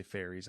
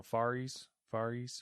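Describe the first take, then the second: First: Faries said FAIR-eez; first pronunciation guess. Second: Faries said FAR-eez, softly tried out; alternative pronunciation. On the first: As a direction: say Faries with an "air" vowel and a buzzing z. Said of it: "would you say, I would say". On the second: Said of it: "I don't know". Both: Shown as a demonstration.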